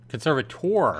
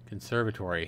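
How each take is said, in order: First: The word ends in a '-tor' sound. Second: The word ends in a '-tory' sound. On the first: "I was saying conservator at first" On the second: "I was saying conservator at first and then conservatory"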